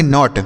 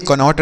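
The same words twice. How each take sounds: First: नॉट with silent K; one syllable नॉट, straight onto the N; correct reading. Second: कनॉट with the K sounded; wrong reading. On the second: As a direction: misread कनॉट as "ka-not", K before the N. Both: Shown as a demonstration. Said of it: "कनॉट नहीं पढ़ेंगे".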